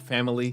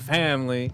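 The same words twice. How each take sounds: First: The word is said in a plain accent. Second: The word is said in a Southern accent. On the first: "He changed from family" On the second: "trying to fake a Southern accent"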